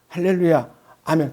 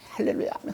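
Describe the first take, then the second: First: The phrase is said at a slow, even pace. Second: The phrase is said quickly, running together. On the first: "처음에는요 세다가요" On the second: "더 빨리 더 속도를 내서"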